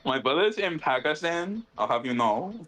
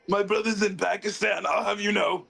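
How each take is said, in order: First: It is said in his normal voice. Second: It is said in a Vegeta impression voice.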